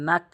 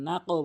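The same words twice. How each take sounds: First: "নাক" cut shut on the K; closed final K in "নাক"; common mistake. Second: Released, echoing end on "নাকও"; qalqalah. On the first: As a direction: end "নাক" without any bounce. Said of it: "এখানে নাক বলে". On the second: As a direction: bounce the back-of-mouth K in "নাকও". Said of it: "কলকলা করতে হবে". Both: Shown as a demonstration.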